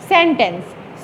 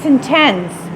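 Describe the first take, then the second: First: The stress is on the first syllable. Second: The stress is on the second syllable. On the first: It means a group of words. "सेन को आपने stressed बोलना है और tense को आपने unstressed बोलना है" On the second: It means a punishment. "पहले सेन को आपने अनस्ट्रेस्ड बोलना है और टेंस को आपने स्ट्रेस करना है"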